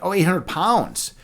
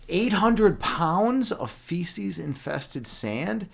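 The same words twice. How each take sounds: First: Slow, higher, falling on POUNDS; "oh, now I get it" delivery; sudden realization. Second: Very slow, higher, rising disbelief; incredulous. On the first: Streamer finally understands a viewer's chat message, sudden realization. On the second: Streamer repeats buddy's chore back to him, incredulous. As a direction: draw it out as a stunned question. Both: Real, not acted.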